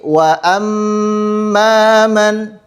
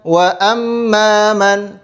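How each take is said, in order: First: The doubled m is held with a long nasal hum. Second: The doubled m is short with little nasal hum. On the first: The speaker calls it right. "didengungkan sepanjang dua harokat" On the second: The speaker calls it wrong. "tidak boleh"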